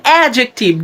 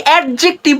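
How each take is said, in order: First: অ্যাডজেক্টিভ as "A-jek-tiv"; correct pronunciation. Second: অ্যাডজেক্টিভ as "ed-jek-tiv"; sounded d before j in অ্যাডজেক্টিভ; wrong pronunciation. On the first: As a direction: silent d in অ্যাডজেক্টিভ. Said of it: "আজকের পর থেকে বলবেন". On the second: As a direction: break অ্যাডজেক্টিভ after a clear "ad". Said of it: "বলবেন না". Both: Shown as a demonstration.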